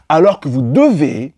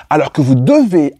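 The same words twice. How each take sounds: The two takes are said the same way.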